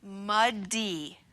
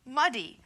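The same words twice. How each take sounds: First: Stretched muddy, the d held long; muddy blended slowly; slow blending. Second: Said in the usual way. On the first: Shown as a demonstration. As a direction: draw muddy out slowly, sound by sound. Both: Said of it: "All together".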